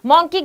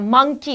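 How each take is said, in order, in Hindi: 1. पहला स्वर 'saw' में 'aw' जैसा बोला जाता है। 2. पहला स्वर 'cup' में 'uh' जैसा बोला जाता है। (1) "मॉन्की गलत होता है बेटा" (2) "मंकी होता है"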